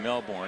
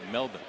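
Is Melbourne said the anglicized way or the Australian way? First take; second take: anglicized; Australian. First: Melbourne is said in an anglicized way. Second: Melbourne is said the Australian way. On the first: "It's kind of the anglicized version" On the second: "a true Australian would say Melbourne"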